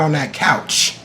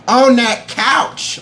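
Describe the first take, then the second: First: Said in the usual way. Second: High, drawn-out odd voice; silly put-on voice. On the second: Viewer who almost cried on that couch, silly put-on voice. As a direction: stretch it out slowly in a high comic voice. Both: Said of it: "where these voices are coming from".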